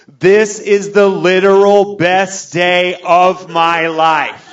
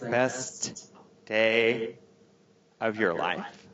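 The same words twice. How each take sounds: First: High, loud, drawn-out proclamation; mock-drunk ecstatic bellow; hammed-up drunken bawling. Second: Soft, icy disbelief, imitating the wife; quietly pissed. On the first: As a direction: wail it slowly in overblown joy. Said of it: "I am drunk. I am saying outlandish things". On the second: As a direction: space the words out in hushed reproach. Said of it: "She's pissed".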